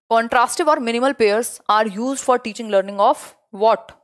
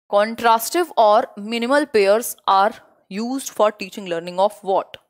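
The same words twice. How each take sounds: First: Very slow reread of the quiz question; slow question reading. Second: Very slow, spaced out quiz question; slow question reading. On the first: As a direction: read it out slowly once more. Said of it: "teacher rereads quiz question". (धीरे-धीरे दोबारा पढ़ा गया सवाल) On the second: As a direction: read the question slowly for the class. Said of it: "teacher reads quiz question". (Class को धीरे-धीरे सवाल पढ़कर सुनाना) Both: Shown as a demonstration.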